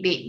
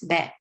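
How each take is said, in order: First: The vowel is a long 'ay' sound. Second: The vowel is a short 'eh' sound. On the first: The speaker calls it wrong. "A lot of people say bait" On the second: The speaker calls it right. "It's bat, right?"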